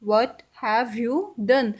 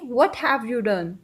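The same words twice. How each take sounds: First: Slow repeat of What have you done, a touch calmer; slow English model sentence; very slow teaching demo. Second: What have you done drawn out word by word; slow English model sentence; very slow teaching demo. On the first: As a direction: repeat it very slowly. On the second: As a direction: model it very slowly for learners. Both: Shown as a demonstration. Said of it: "English में कैसे बोलेंगे?".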